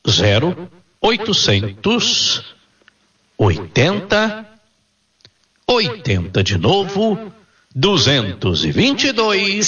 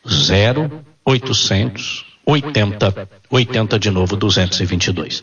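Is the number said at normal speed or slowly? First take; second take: slowly; normal speed. First: It is said slowly. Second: It is said at normal speed.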